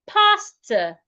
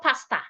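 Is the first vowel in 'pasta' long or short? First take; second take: long; short. First: The first vowel is long. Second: The first vowel is short. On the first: The speaker calls it right. "the letter A here makes a long sound" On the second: The speaker calls it wrong. "not pasta"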